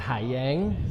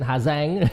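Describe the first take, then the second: First: It is said without a northern Vietnamese accent. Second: It is said with a northern Vietnamese accent.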